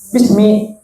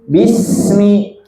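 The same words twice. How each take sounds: First: The s sound is cut short and abrupt. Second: The s sound flows on and is sustained. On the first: The speaker calls it wrong. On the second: The speaker calls it right. "sinnya itu harus benar-benar mengalir"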